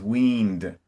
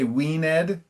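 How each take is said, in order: First: The -ed ending is not said as a syllable. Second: The -ed ending is said as its own syllable. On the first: This is the modern English pronunciation. The speaker calls it right. "it says weaned" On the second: This is an old-fashioned, Shakespearean pronunciation. The speaker calls it wrong. "modern English doesn't say weaned"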